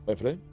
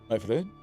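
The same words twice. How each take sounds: Both takes have the same delivery.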